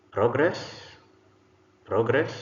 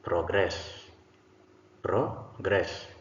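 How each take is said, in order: First: PROgress, higher pitch with a rising end; stress on first syllable. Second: ProGRESS, weight on the last syllable; stress on second syllable. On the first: Teacher models the noun for the class, first-syllable stress on "progress". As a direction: say "progress" as the noun, hitting "pro". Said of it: "first syllable stressed gives us a noun". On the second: Teacher models the verb for the class, second-syllable stress on "progress". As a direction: say "progress" as the verb, hitting "gress". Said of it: "second syllable stressed gives us a verb".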